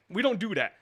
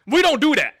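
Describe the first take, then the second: First: Said in the usual way. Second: Louder and higher, stress on "we"; firm insistence. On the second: Real, not acted. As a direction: lay down the rule loudly on "we". Firmly insisting they never dox.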